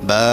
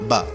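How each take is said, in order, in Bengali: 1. স্বরটি টেনে লম্বা করে পড়া হয়। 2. স্বরটি ছোট ও দ্রুত। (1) "এরকম টেনে টেনে পড়তে হবে" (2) "যদি হরকত হতো বা জবর বা, তাড়াতাড়ি"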